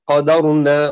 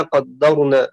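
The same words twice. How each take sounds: First: قدرنا with a single, unstressed dal, qadarna; light dal. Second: قدرنا with a held, doubled dal, qaddarna. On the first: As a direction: say قدرنا quickly, no doubled dal. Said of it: "بتخفيف الدال". (قدرنا بتخفيف الدال) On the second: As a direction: lean on the dal in قدرنا, qad-dar-na. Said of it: "بتشديدها". (قدرنا بتشديد الدال) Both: Shown as a demonstration.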